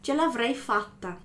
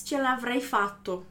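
First: Fatta ending in an open a, the right form; correct ending fatta. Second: Fatto ending in a clear o, the form to avoid; wrong ending fatto. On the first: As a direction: say fatta with a final a, agreeing with la. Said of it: "A gente normalmente fala". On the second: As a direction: say fatto with a final o, as the wrong version. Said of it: "A gente não diz". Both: Shown as a demonstration.

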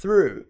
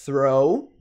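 First: "through" with airy TH and falling OO; contrasting OO vowel. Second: "throw" ending in a rising OH glide; contrasting OH vowel. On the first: Teacher contrasting it with throw, long OO. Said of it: "a gente fala through". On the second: Teacher contrasting throw with through, rounded OH. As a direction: say "throw" with TH and OH, questioning lift. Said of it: "ao invés de". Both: Shown as a demonstration.

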